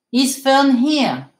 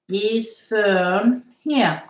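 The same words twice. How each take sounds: First: Said in the usual way. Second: "Is Fern here?" very slow, each word held apart; slow model. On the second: Shown as a demonstration. Teacher repeating the question for students, slowly spaced out.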